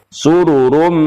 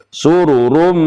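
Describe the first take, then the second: Both takes have the same delivery.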